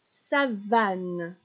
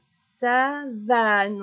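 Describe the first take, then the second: First: Said in the usual way. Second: "savane" stretched out, louder, syllable by syllable; split into syllables. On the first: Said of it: "On va chercher donc ce qui est répété". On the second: Shown as a demonstration. Teacher showing a child which syllable repeats, "savane" split and stretched. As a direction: draw out "savane" as sa... vane, loudly. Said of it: "on attrape van pour le répéter".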